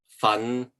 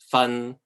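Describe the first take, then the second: First: The syllable is said in the fifth tone. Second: The syllable is said in the third tone. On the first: It means to work hard. "The fifth one is to uh, work hard at something" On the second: It means to teach or accuse. "The third one means um, to to accuse someone, to to teach something"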